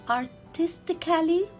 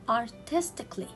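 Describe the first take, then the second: First: The vowel before -ly is pronounced as a syllable. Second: The vowel before -ly is silent, not pronounced. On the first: The speaker calls it wrong. "Can I read it artistically? No" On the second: The speaker calls it right. "I will delete letter A"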